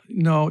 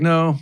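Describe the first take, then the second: First: The no sounds hesitant and gentle. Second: The no sounds moderately firm. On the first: The customer is unsure. "that to me is a soft no" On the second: The customer is not convinced yet. "A medium no sounds like this"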